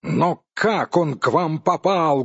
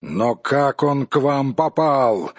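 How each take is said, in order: First: Higher, indignant demand; angry cry. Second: Slow, puzzled question; astonished question. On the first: Dwarf asks the supposed thieves once more, angrily. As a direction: demand it in mounting anger. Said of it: "гневно вскричал Торин". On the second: Dwarf cannot help asking how they got it, amazed. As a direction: ask in restrained amazement. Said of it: "не удержался от вопроса". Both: A narrator's reading.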